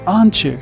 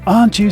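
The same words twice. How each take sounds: First: The t and y merge into a ch sound. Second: The t and y sounds stay separate.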